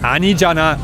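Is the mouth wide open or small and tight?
wide open. It is said with a wide open mouth. The speaker calls it wrong.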